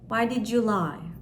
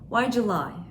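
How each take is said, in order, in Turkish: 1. Her kelime açık ve ayrı ayrı söyleniyor. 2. Kelimeler hızlı bir şekilde birbirine karışıyor, "July" gibi duyuluyor.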